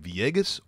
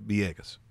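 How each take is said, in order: First: The first sound is a clear V. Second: The first sound is softened toward a B. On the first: "You could say Villegas" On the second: "sometimes the V sounds a little B-ish"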